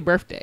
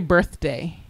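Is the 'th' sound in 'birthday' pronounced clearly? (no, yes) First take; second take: no; yes. First: The th sound is not pronounced. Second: The th sound is pronounced clearly. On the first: "You say birthday" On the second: "You don't say birthday"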